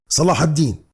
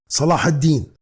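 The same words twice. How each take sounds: First: The name is said as Arabic Salah ad-Din. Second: The name is said as Arabic Salah ad-Din.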